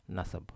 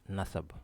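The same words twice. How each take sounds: The two takes are said the same way.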